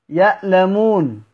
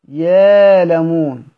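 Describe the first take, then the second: First: A glottal stop follows the first syllable. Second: A long 'aa' vowel replaces the glottal stop.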